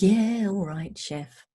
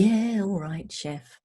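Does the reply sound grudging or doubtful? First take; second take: doubtful; doubtful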